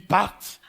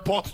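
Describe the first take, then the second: First: The word is said affectedly, with an 'a' vowel. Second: The word is said plainly, with an 'o' vowel. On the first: "tu dis parte" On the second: "Au lieu de dire même porte"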